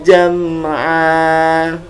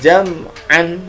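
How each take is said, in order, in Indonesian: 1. Kata ini berakhir dengan vokal panjang. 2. Kata ini berakhir dengan bunyi n. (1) "dibaca dengan panjang" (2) "itu bacaan yang salah"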